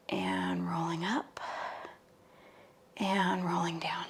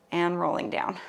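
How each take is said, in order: First: Slow soft whisper cue. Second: Said in the usual way. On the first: Shown as a demonstration.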